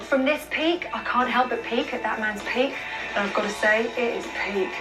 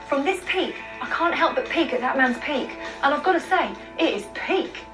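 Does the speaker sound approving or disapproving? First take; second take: disapproving; approving. First: It sounds disapproving and displeased. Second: It sounds approving and delighted.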